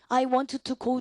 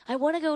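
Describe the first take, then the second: First: Each word is pronounced separately and clearly. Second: The words are reduced and run together.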